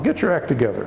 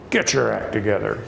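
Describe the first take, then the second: First: It is said in a kind, encouraging tone. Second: It is said in a harsh, stern tone. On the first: The speaker is gently encouraging someone. "a nice way of encouraging someone to pay attention" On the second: The speaker is sharply correcting someone. "it can be either a severe uh, correction"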